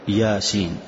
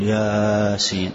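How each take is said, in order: First: The first vowel is held for two counts. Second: The first vowel is stretched well beyond two counts. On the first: The speaker calls it right. "حركتين فقط" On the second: The speaker calls it wrong. "ما تقول ياسين"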